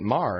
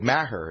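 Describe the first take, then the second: First: The name is said the Irish way. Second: The name is said the family's usual way. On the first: This is how people in Ireland say it. "in Ireland, they pronounce it Mar" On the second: This is how the family has always said it. "that's the way my family's always said it"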